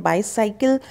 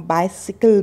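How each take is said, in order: First: बाईसाइकिल as bai-SAI-kil, rising; wrong pronunciation. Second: बाइसिकल as BAI-si-kul; correct pronunciation. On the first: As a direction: show बाईसाइकिल with a long "साइ". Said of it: "साइकिल नहीं बोलना है". (बाईसाइकिल का गलत उच्चारण) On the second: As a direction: model बाइसिकल with short "सि". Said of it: "उसको हम बाइसिकल बोलेंगे". (बाइसिकल का सही उच्चारण) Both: Shown as a demonstration.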